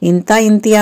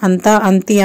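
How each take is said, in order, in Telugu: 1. ప్రతి పదం 'i' అచ్చుతో మొదలవుతుంది. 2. ప్రతి పదం 'a' అచ్చుతో మొదలవుతుంది. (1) "మనము ఇంత ఇంతి అని మనకైతే అలవాటు అయిపోయింది" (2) "కరెక్ట్ ఏంటంటే అంత అంతి"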